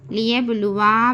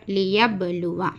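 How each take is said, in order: First: "लियबलुवा" with a long final "vaa"; wrong stretched vowel. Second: "लियबलुवा" ending on a short "va"; short vowel. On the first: Teacher warning not to stretch, लियबलुवा ending long. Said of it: "बोलकर नहीं खींचना". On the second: Teacher giving the correct reading, लियबलुवा ending short. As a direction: bounce the b and keep the end of "लियबलुवा" short. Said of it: "सिर्फ". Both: Shown as a demonstration.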